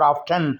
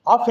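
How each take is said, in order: First: The t sound is pronounced. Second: The t sound is silent. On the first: This follows American English. "American इसको पढ़ा करते हैं और ऑफ्टन बोलती हैं" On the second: This follows British English. "ऑफन में टी silent है अगर आप ब्रिटिश इंग्लिश को फॉलो कर रहे हैं"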